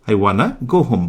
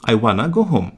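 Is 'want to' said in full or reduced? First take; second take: reduced; reduced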